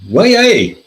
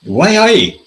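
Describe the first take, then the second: First: High, loud Geordie "Why, aye?"; hammed-up Geordie Hartlepool man exclaiming; Geordie accent. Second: High, loud Geordie "Why, aye?" once more; playful Geordie voice, both words drawn out; Geordie accent. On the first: Radio interviewee in Hartlepool, hammed-up Geordie accent. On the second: Retold or imitated. Hartlepool voter on the radio, mock Geordie accent. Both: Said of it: "This is me doing a, a north and eastern".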